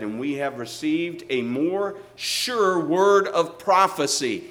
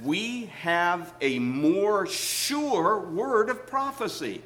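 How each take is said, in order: First: Louder, slow, rising to a ringing prophecy; proclaimed quote. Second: Stretched out very slowly, weight on sure; slow solemn quote. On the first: Preacher proclaiming the verse to his church, louder. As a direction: proclaim it to the back row. Quoting Peter's sure word again. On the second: Preacher reading Peter's verse to the congregation, very slow. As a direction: draw out every word of the promise. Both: Acted.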